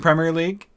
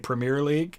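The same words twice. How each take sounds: First: Premier is pronounced the British way. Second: Premier is pronounced the American way. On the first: The speaker calls it right. "I'm trying to say it that way because I don't want to anger my English friends" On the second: The speaker calls it wrong. "we in America we say Premier League"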